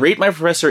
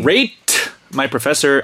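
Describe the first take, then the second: First: The T in 'Rate' is weak and barely heard. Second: The T in 'Rate' is clearly released. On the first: The speaker calls it wrong. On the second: The speaker calls it right.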